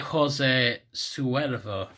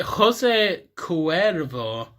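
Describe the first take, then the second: First: "Suervo" opened with an S sound. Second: "Cuervo" opened with a hard K. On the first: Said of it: "is it Jose Cuervo". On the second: Vlogger puzzling over the brand name, hard K in Cuervo. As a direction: say Cuervo slowly, starting with a K sound. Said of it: "or is it Jose Suervo". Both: Shown as a demonstration.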